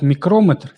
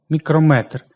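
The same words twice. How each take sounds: First: Мікрометр stressed on the second syllable, мікрОметр. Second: Мікрометр stressed on the last syllable, мікромЕтр; stress on final Е. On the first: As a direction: put the stress on КРО in мікрометр. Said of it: "це вже дуже точний прилад". (мікрометр з наголосом на О, другий склад) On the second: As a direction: put the stress on МЕТР in мікрометр. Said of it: "наголос падає на е". (мікрометр з наголосом на Е в останньому складі) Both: Shown as a demonstration.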